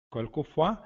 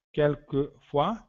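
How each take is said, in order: First: Said in the usual way. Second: "Quelquefois" spelled out slowly as "kel-ke-fwa", rising at the end; slow teacher model of "Quelquefois"; slow model word. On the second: Shown as a demonstration. ("Quelquefois" dito devagar, como modelo) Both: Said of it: "Tomamos cuidado com um falso amigo aí".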